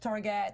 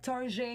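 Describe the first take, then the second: First: It is said with a plain English accent. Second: It is said with a French accent.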